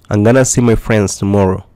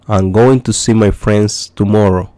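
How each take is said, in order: First: 'Going to' is blended into one word, 'gonna'. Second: Both words 'going to' are said in full. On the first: "Tiene otra alternativa que es decir I'm gonna see my friends tomorrow. De esta manera suena un poco más fluido" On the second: "si usted quiere decir voy a ver a mis amigos mañana"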